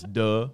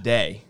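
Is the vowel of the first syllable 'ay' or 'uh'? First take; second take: uh; ay. First: The first syllable is said with an 'uh' vowel. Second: The first syllable is said with an 'ay' vowel. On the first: The speaker calls it wrong. "you want DeRaja. Duh. It's duh" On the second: The speaker calls it right. "But it's day"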